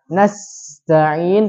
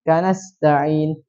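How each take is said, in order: First: The s sound flows out with breath. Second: The s sound is cut short without flow. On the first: The speaker calls it right. "yang harus dialirkan" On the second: The speaker calls it wrong. "Tidak dialirkan"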